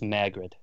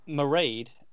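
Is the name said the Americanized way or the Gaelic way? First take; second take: Americanized; Gaelic. First: The name is said with an Americanized pronunciation. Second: The name is said with its Gaelic pronunciation. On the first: This is the form the name's bearer goes by. "she goes by the Americanized saying of it" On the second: This is the original form of the name. "is the Gaelic pronunciation"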